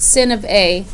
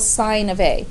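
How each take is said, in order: First: The first word has a short vowel, like pin. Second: The first word has a long vowel, like pine. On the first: The speaker calls it wrong. "You will not pronounce it sin of A" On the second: The speaker calls it right. "It's still sign of A"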